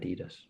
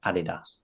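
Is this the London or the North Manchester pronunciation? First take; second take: North Manchester; London. First: It is said the way North Mancunians say it. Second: It is said the way Londoners say it. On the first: "at home, everyone calls it Adidas, like me" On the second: "When I was in London, everyone just called it Adidas, like you guys"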